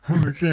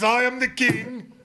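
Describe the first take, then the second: First: It is said in a pained, near-tearful tone. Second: It is said in a proud, regal tone.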